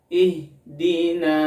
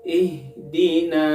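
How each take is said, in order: The two takes are said the same way.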